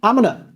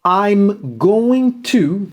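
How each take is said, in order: First: The phrase is shortened and blended together. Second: Every syllable of the phrase is said fully.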